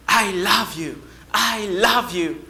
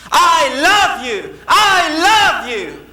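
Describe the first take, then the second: First: Answering echo. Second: High, loud, drawn-out shout. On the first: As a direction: return the call as if from far away. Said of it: "the voice came back to him". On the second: Boy outside shouting to the unseen voice, loud calling. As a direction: call it out slowly into the distance. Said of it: "then he started shouting". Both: Acted.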